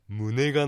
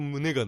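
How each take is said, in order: First: It uses the Niigata dialect pitch accent. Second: It uses the standard Japanese pitch accent. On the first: "新潟の人は胸がの方がいいと思う" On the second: "標準語だと胸がですろも"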